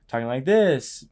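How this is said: The pitch rises at the end. The speaker seeks approval or confirmation. "Seeking is like talking like this"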